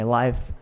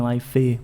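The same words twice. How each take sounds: First: The word ends cleanly on the F sound. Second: An extra vowel sound follows the final F. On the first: The speaker calls it right. "aqui é a mesma coisa" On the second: The speaker calls it wrong. "nem life"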